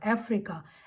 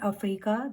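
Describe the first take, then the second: First: The word is said with a clear f sound. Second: The word is said without a clear f sound. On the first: The speaker calls it right. "एफ की sound आएगी इसमें" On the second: The speaker calls it wrong. "Not अफ्रीका"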